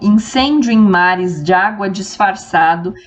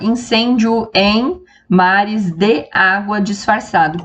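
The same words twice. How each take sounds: First: Vowels between neighbouring words run together. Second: Vowels between neighbouring words are kept apart. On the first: The speaker calls it right. "as sílabas se juntam" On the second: The speaker calls it wrong. "a gente não fala"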